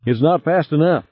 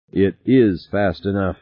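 First: High, anxious protest; alarmed. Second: Measured, firm correction; correcting. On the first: Passenger to pilot fleeing the explosives, high and alarmed. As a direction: complain in a high worried voice. Harry panics as sub races bomb. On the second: Pilot correcting his panicking passenger, steady and firm. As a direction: correct him in a level, steady voice. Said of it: "correcting him". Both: A narrator's reading.

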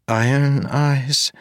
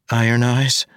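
First: Put-on higher, careful young woman. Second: Put-on higher young woman asking. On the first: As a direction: ask gently as a young woman. Marasi asks, high female voice. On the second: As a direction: ask it gently as a young woman. Marasi asks again.

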